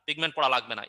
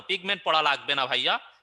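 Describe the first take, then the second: First: Falling, settled tune on পড়া; answering statement. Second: Rising question tune on পড়া, echoing the student; reading a student's question. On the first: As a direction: state pigment পড়া লাগবে না firmly, ending down. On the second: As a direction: ask pigment পড়া লাগবে না as a question ending up. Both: Shown as a demonstration.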